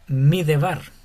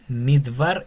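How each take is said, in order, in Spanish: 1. Se oye una e breve entre la d y la b. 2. No se oye ninguna vocal entre la d y la b. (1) "no Midebar" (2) "sería Midbar"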